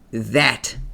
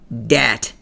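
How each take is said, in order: First: The word begins with a soft th sound. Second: The word begins with a hard d sound. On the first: The speaker calls it right. "It's T H A T, and it's pronounced that" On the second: The speaker calls it wrong. "not dat. There is no D in that"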